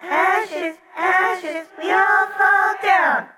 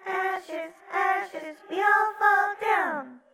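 First: Put-on high, slow ghostly children's chant; sung, sing-song chorus. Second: Faint singing. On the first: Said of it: "The distant sing-song chorus continued". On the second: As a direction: sing it faintly, far away. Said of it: "hear singing again, faintly". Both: A narrator's reading.

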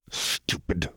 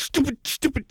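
First: "Stupid" mumbled much softer and falling. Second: "stupid, stupid" shrieked far higher; frantic self-loathing. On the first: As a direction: mutter it under the breath. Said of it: "Jinx mumbled". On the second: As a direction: spit each word at herself, unhinged. Punching herself in rage. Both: Acted.

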